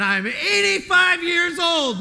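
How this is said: It is said in an excited, triumphant tone. Age is proclaimed as proof of being kept alive. The speaker calls it right. "it has an exclamation point after 85 years old"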